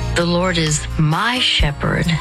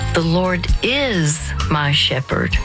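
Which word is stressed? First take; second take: my; is. First: The stress is on "my". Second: The stress is on "is".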